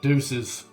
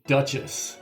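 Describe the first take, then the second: First: The name is said to sound like 'Deuces'. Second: The name is said to sound like 'Duchess'. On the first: "it could also be like Deuces" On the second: "It's giving me Duchess when I look it up"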